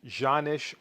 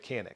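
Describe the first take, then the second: First: The name begins with a soft J sound. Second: The name begins with a hard K sound. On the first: This is how the name is said in Turkish. The speaker calls it right. "In the Turkish language, it's pronounced Janish or something like that" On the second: This is an English speaker's way of saying the name. The speaker calls it wrong. "I'll mispronounce it in a language that I do know"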